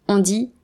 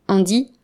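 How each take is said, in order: The two takes are said the same way.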